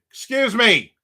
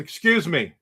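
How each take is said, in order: First: Louder, higher repeat to get her attention; insistent calling out. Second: Said in the usual way. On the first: Retold or imitated. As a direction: call out harder to someone not looking. Repeats it as she isn't looking.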